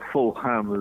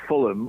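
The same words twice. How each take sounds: First: The name is said the American way. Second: The name is said the usual local way. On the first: "as um, Americans sometimes call it" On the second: "but Fulham"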